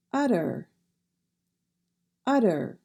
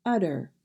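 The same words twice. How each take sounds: First: "utter" with a soft flapped middle t. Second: "utter" with the t flapped, not sharp; soft t. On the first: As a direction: say "utter" with no sharp t. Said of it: "We do not say a sharp T". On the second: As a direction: say "utter" softly, like udder. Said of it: "We do not say a sharp T in that word". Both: Shown as a demonstration.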